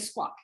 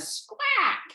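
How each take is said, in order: First: It is said the East Coast way. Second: It is said with a Texas drawl.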